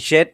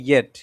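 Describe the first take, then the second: First: The word begins with a 'j' sound. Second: The word begins with a 'y' sound. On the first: The speaker calls it wrong. "জেট না" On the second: The speaker calls it right. "এটা এটা ইয়েট"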